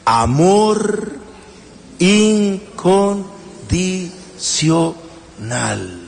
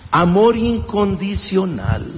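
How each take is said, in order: First: Drawn-out answer. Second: Said in the usual way. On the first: Shown as a demonstration. Preacher answering his own question, very slow. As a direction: stretch each word very slowly. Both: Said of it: "¿Cómo se llama eso?".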